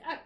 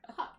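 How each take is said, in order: First: Huck said as uck, no H at the start; dropped H. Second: Said in the usual way. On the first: Shown as a demonstration. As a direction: say Huck like a small child, dropping the H. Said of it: "and then the H is missing". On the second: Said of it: "she kinda says it like Huck".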